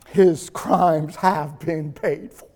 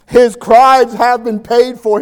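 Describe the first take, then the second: First: Low, soft and slow, utterly calm; calm judge. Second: Said in the usual way. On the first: Acted. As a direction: say it quietly, settled and certain. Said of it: "calmly looks out at the crowd". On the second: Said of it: "repeats the line in the preaching voice".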